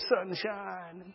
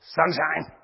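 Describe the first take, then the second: First: It is said in a sweet, affectionate tone. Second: It is said in a sharp, harsh tone. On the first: The couple is newly in love. "the flattering names they used for each other" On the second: The affection between the couple has faded. "But the tone has changed"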